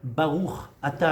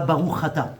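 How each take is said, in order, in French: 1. Chaque mot est clairement articulé avec les lèvres. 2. Les mots sont marmonnés, sans articulation claire. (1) "articuler avec les lèvres"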